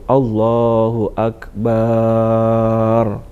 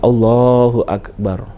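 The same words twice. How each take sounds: First: The vowel after the b in akbar is drawn out. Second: The vowel after the b in akbar is kept short. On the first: The speaker calls it wrong. "Jadi enggak memperpanjang bacaan baknya ... itu tidak benar" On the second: The speaker calls it right. "pengucapan yang tepat adalah Allahu Akbar"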